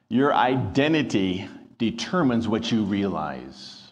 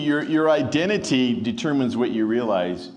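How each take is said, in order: First: The sentence is spoken at a slower pace. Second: The sentence is spoken at a normal pace.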